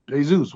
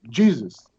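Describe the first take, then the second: First: "Jesus" as Spanish hay-ZOOS; Spanish pronunciation. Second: "Jesus" as plain English JEE-zus; English pronunciation. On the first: Actor offers the star another version, "Jesus" as Spanish hay-ZOOS. Gives name in both pronunciations. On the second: Actor answers the star asking his name, "Jesus" as English JEE-zus. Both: Retold or imitated.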